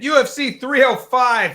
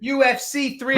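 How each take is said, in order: First: Put-on high, loud, slow announcer call with no Australian accent; accent dropped, announcer. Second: Put-on a high, failed stab at an Australian accent; attempted Australian accent. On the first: Host giving up the Australian accent, announcing the card plainly loud. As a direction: drop the Australian accent and just announce it big. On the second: Host attempting an Australian accent for the fight card, botched. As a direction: try the Australian accent and lose it. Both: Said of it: "I cannot do that accent".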